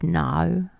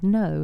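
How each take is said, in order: First: It is said in an exaggerated, dramatic way. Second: It is said in a plain, normal way.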